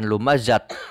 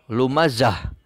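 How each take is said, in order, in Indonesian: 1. Kata itu berakhir dengan bunyi t. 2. Kata itu berakhir dengan bunyi h yang lembut. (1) "bukan lumazat" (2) "maka lumazah, ... akan tetapi lumazah"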